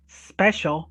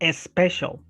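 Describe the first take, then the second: First: The word starts directly with an s sound. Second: The word starts with an added vowel before s. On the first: The speaker calls it right. "instead of, for example, special" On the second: The speaker calls it wrong. "we say special because our brains... need... this vowel at the very beginning"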